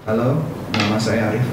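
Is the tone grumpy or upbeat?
grumpy. It sounds grumbling, annoyed and irritated. "ngomongnya dengan menggerutu, dengan kesel, marah-marah"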